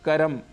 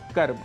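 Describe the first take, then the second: First: A vowel is inserted between the final consonants. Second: The final consonants are said together without vowel. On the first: The speaker calls it wrong. "हम स्वरों को जोड़ भी देते हैं" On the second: The speaker calls it right. "इनके शुद्ध उच्चारण हैं"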